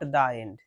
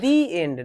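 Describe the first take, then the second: First: The word 'the' has a short 'uh' vowel. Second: The word 'the' has a long 'ee' vowel. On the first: The speaker calls it wrong. "Not দা end" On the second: The speaker calls it right. "দি end, not দা end"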